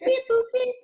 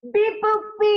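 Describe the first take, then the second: First: High, loud robot beeps; toy robot voice. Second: High beeping robot, louder; toy robot voice. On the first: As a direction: chirp it like a tiny toy robot. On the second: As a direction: beep it out like a little toy robot. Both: Pretend. Robot sounds ending the show.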